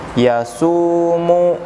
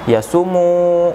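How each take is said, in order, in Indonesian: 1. Vokal tengah 'su' dibaca panjang. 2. Vokal tengah 'su' dibaca pendek. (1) "Dibacanya yaitu yasumu" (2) "bukan yasumu, bukan, bukan seperti itu"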